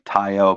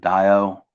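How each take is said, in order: First: The word begins with a T sound. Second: The word begins with a D sound. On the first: "I pronounce it the Tao because it's spelled with a T" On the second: "I think it's actually pronounced the Dio"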